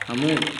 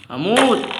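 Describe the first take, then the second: First: Said in the usual way. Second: High loud yell of panic; panicked shout. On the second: Real, not acted. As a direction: scream it as your character is dying. Gamer about to die in game. (صرخة ذعر عالية)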